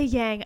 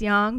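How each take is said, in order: First: Said with an American English vowel and sound. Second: Said with a Mandarin-style vowel and sound. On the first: The speaker calls it wrong. "I pronounce it like someone from Long Island" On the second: The speaker calls it right. "technically it's yang"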